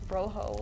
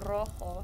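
First: The r is a plain English r, not trilled. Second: The r is trilled as in Spanish. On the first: The speaker calls it wrong. "not rojo" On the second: The speaker calls it right. "no, it's a rojo"

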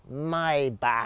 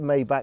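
First: The final consonant is throaty, like clearing phlegm. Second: The final consonant is plain, not throaty. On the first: This is the supposedly correct way to say it. "apparently you're supposed to say it Maybach" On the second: This is the everyday way the speaker says it. "I call it Maybach. That's how I naturally say it"

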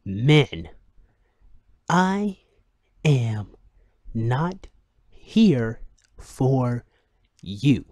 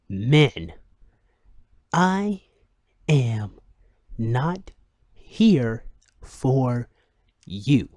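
First: It is read in a put-on radio-announcer voice. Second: It is read in a put-on radio-announcer voice.

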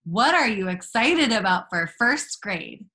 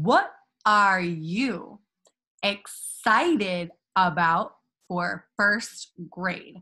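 First: The words are joined smoothly in one phrase. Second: Each word is read separately, like a robot.

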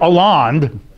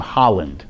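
First: The name is said with French pronunciation. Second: The name is said with English pronunciation. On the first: "I guess is how you pronounce it in French" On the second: "in English, how would you pronounce his name?"

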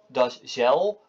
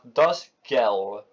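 First: The g is pronounced the Dutch way. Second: The g is pronounced the German way. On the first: The speaker calls it wrong. "Dus niet das gel" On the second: The speaker calls it right. "maar das gel"

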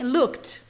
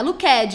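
First: The ending is a short t sound. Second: The ending is a separate ed syllable. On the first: The speaker calls it right. "é um tzinho no final... É um kt mesmo" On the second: The speaker calls it wrong. "Não é looked, hein?"

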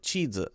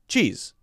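First: The word is split into two syllables. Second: The word is said as one syllable. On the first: "I hear two syllables" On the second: "I would pronounce this with one syllable"

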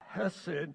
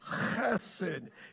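First: The first sound is soft, without throaty friction. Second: The first sound is harsh and throaty, with spray. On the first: The speaker calls it wrong. "It's not chesed" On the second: The speaker calls it right. "If you don't get a little on you, you haven't said it right"

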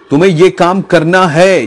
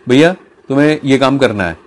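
First: It is said loudly, almost shouted. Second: It is said plainly in a normal voice.

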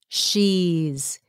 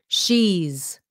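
Both takes have the same delivery.

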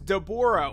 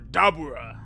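First: The name is pronounced in an English style. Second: The name is pronounced in a Japanese style.

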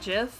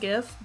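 First: The word begins with a j sound. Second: The word begins with a hard g sound. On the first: The speaker calls it wrong. "some people say JIF" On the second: The speaker calls it right. "I pronounce it GIF"

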